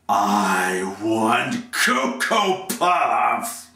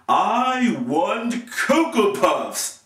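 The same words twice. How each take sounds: First: It is spoken menacingly like a threat. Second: It is proclaimed loudly like a public announcement. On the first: "Next one is threatened" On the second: "the first verb is announced"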